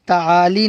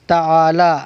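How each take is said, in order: First: The word ends with an 'ee' vowel. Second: The word ends with a long 'a' vowel. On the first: The speaker calls it wrong. "ताली नहीं पढ़ेंगे।" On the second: The speaker calls it right. "इसलिए इसको क्या पढ़ेंगे? ताला।"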